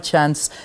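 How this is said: The word is said with an American accent. "I love my American accent in there"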